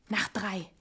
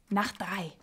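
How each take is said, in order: No difference in how they are said.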